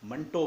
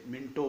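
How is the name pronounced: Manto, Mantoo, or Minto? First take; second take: Manto; Minto. First: The first vowel is 'a', ending in 'o'. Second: The first vowel is 'i', ending in 'o'. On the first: "कुछ लोग इसे मंटो बोलते हैं" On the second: "कुछ लोग इसे मिंटो बोलते हैं"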